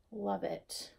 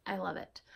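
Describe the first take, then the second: First: Said in the usual way. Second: Hushed and delighted, no voice behind it; soft hushed whisper. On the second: Real, not acted. Knitter whispering her delight at the finished shawl. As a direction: breathe it softly, almost a whisper.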